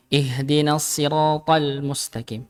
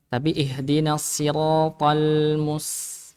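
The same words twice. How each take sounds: First: Siratal slow with lam cut short; clipped lam wrong. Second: Siratal slow, lam slightly drawn out; lam held longer. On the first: Teacher shows the clipped lam mistake to class. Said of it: "bukan tal". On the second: Teacher shows the slightly drawn-out lam to class. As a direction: hold the lam a bit in siratal. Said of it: "agak diseret". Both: Shown as a demonstration.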